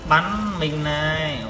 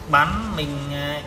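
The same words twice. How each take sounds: The two takes are said the same way.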